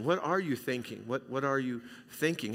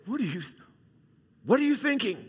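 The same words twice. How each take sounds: First: Softer, sincere asking; what are you thinking, asked softly and caringly; gentle caring question. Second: Sharp, high exasperated parent demand; scolding parent. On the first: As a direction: ask it kindly, like a friend. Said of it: "with a little different inflection". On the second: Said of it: "You might say". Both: Shown as a demonstration.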